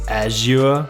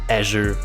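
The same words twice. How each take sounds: First: It is said with a British English pronunciation. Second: It is said with an American English pronunciation. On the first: "In British English it would be something like Azure" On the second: "In American English it would be Azure Window"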